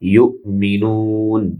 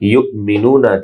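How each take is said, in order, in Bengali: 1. একটি দীর্ঘ স্বর বন্ধ n-এর দিকে নিয়ে যায়। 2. শব্দটি n-এর পরে একটি হ্রস্ব স্বরে শেষ হয়।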